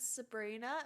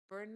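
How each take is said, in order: First: The name is said in its normal form. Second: The name is said in a distorted form. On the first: The speaker calls it right. "my name is Sabrina" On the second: The speaker calls it wrong. "people being like"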